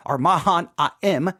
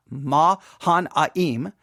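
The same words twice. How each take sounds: First: Mahanaim said mah-HAH-nah-em, slow and nasal vowels; alternate pronunciation. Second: Mahanaim drawn out very slowly, mah-HAH-nah-eem; first pronunciation. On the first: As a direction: offer Mahanaim as the second way to say it. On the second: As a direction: stretch Mahanaim syllable by syllable. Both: Shown as a demonstration. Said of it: "depending on how you want to say it".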